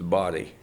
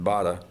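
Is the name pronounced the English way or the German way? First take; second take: English; German. First: The name is pronounced like English 'body'. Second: The name is pronounced with German vowels. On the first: This is the adapted local pronunciation. "it had been anglicized to body" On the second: This is the original family pronunciation. "In German, you'd pronounce it Bada"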